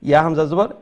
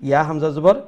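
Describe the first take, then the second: Both takes have the same delivery.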